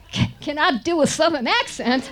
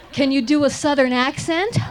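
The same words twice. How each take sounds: First: Higher, hammed-up Southern accent. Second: Said in the usual way. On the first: Young actress answers the director's question in a hammed-up Southern accent. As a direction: lay on a playful Southern twang.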